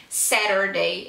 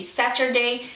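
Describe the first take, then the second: First: "Saturday" with the T tapped like an R. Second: "Saturday" with a crisp T; T pronounced clearly. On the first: Teacher showing her American habit, "Saturday" with tapped T. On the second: Teacher comparing two pronunciations, "Saturday" with hard T. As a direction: say "Saturday" with a true T sound. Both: Shown as a demonstration. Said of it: "pronunciar o T com R".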